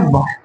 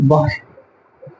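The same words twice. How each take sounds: First: Said in the usual way. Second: वायु stretched very slowly and softly; वायु said slowly and softly, drawn out like a breath; drawn-out air word. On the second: Shown as a demonstration. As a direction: let वायु float out long and quiet. Teacher drawing out the word air.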